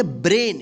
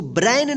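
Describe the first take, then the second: First: "ब्रेन" with a long pure "ay" vowel, like "brayn"; correct reading. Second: "ब्रेन" misread with an open gliding "ai" vowel, like "ब्रैन"; wrong reading. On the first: Teacher shows learners how brain is read, "ब्रेन" with long "ay". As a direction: say "ब्रेन" with a clear "ay", not "ai". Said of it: "क्या पढ़ेंगे". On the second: Teacher warns learners off misreading brain, "ब्रेन" said with open "ai". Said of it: "इसको ब्रेन नहीं पढ़ेंगे". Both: Shown as a demonstration.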